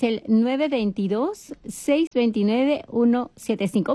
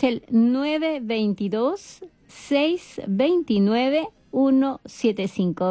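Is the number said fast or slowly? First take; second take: fast; slowly. First: The number is said at a fast pace. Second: The number is said at a slow pace.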